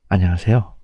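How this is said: It is said in an exaggerated, deep, greasy voice.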